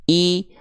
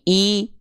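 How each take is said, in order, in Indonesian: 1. Vokal ini adalah bunyi i yang jelas dan tinggi. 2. Vokal ini adalah bunyi i yang jelas dan tinggi.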